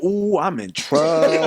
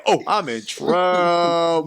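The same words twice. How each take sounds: First: Slow, drawn-out realization; slow dawning dread. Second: Dread. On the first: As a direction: let it sink in slowly. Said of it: "that's when it hit me". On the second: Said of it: "I said". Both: Retold or imitated.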